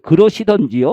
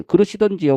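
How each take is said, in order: First: Louder sulky retort. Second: Sulky retort. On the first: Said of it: "그 순간에 폭발했어요". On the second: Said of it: "뭐, 뭐랬대?". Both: Retold or imitated.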